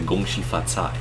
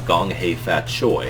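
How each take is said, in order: First: The greeting is said with Mandarin pronunciation. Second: The greeting is said with Cantonese pronunciation. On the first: It is the proper greeting for a Mandarin speaker. The speaker calls it right. "That's how you say it in Mandarin" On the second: It suggests the listener belongs to the former British colony. The speaker calls it wrong. "that's a little bit offensive"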